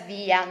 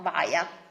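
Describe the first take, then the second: First: The word is said with Italian pronunciation. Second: The word is said with English pronunciation. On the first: The speaker calls it right. "we pronounce it as via" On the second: The speaker calls it wrong. "not via"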